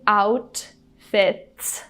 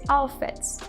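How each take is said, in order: First: The T is fully released. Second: The T is stopped and not released. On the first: "So instead of saying outfits" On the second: "we stop the T's"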